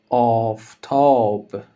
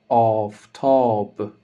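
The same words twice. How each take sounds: The two takes are said the same way.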